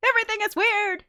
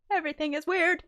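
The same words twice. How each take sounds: First: High, louder squeaky repeat of the phrase. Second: Said in the usual way. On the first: Shown as a demonstration. Repeating her own line to herself in a high squeak. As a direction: pitch it way up, half laughing. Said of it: "repeated phrase, second take". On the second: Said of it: "repeated phrase, first take".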